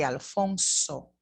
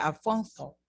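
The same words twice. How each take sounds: First: Alfonso with a plain s; Latin American Alfonso. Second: Alfonso with a lisped th for the s; Castilian Alfonso. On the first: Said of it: "we say". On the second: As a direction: say Alfonso the Spain way. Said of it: "if I was from Spain". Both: Shown as a demonstration.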